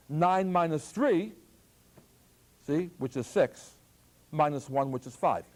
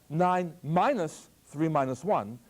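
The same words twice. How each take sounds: First: "Nine minus three" grouped first, slow; group "Nine minus three" then "minus one"; left-to-right grouping. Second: Slow, "three minus one" grouped together; other grouping. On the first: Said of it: "One voice inflection says what?". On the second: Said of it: "The other way would be". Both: Shown as a demonstration.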